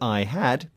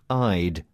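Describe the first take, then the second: First: The word had is pronounced in full. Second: The word had is reduced to a d sound. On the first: "the phrase I had" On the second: "So had is shortened to just a d sound"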